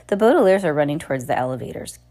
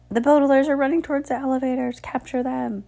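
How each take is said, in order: First: Said in the usual way. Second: Fast, high-pitched alarm; urgent alarm. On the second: A narrator's reading. Bearded man alerts the crowd, urgent high warning. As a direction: sound the alarm quickly and high.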